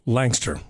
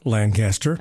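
First: The name is said in two short syllables. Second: The name is said in three full syllables. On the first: This is how locals say the name. "It is pronounced Langster" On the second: This is how the written name reads. "It reads Lancaster"

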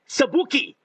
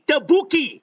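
First: The word begins with an s sound. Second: The word begins with a t sound. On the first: The speaker calls it wrong. "what the S?" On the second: The speaker calls it right. "What the T?"

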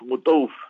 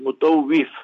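First: The vowel before the final consonant is dropped. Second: The vowel before the final consonant is kept. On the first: This is the shortened form used locally. The speaker calls it wrong. "They call him Mutawf. ... It's not Mutawf" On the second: This is the full, proper form. The speaker calls it right. "it's Mutawif, but they make everything shortcut there"

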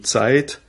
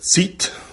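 First: It has the standard German diphthong 'ei'. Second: It has the old Alemannic long 'i' vowel.

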